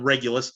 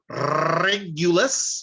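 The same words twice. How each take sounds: First: The R at the start is plain. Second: The R at the start is rolled. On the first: "no, I'm kidding. It's called Regulus" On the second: "you do have to say it with the rolled R"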